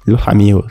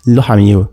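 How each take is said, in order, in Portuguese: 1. O s em "los" soa como um h. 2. O s em "los" soa como um h.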